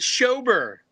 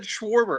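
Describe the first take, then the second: First: The name has no w or r sound. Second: The name has a w and an r sound. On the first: The speaker calls it right. "It's Schober" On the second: The speaker calls it wrong. "You just said Schwarber again"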